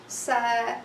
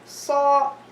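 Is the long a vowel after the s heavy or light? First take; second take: light; heavy. First: The long a vowel sounds light and thin. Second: The long a vowel sounds heavy and full. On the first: The speaker calls it wrong. "I'm not going to say sa" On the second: The speaker calls it right. "the alif will be also مفخم"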